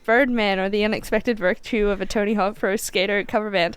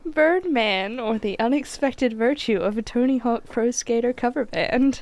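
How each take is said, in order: First: It is said at normal speed. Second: It is said more slowly.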